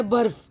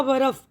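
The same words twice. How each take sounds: First: बर्फ़ said as one syllable, र joined to ब; बर्फ़ with the r closing the first syllable; correct barf. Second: बरफ़ split into ba-raf with an extra vowel; बरफ़ as three open syllables; wrong barf. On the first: Teacher shows the right way to say बर्फ़. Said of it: "अगर हम नहीं मिलाएंगे तो हो जाएगा बरफ़". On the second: Teacher demonstrates the mispronunciation of बरफ़. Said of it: "जो कि गलत तलफ़्फ़ुज़ हो जाएगा". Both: Shown as a demonstration.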